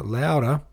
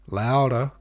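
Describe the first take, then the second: First: Higher, louder repeated call; loud cry. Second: Sharp raised call; loud command. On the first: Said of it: "cried the master". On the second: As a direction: bark it out louder. Master cries out. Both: A narrator's reading.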